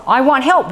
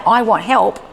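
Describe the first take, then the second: First: Put-on higher-pitched child's plea; upset child imitation. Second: Said in the usual way. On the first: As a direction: mildly mimic a frustrated child asking. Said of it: "he's not realizing that his screaming". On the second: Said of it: "Well, then you say".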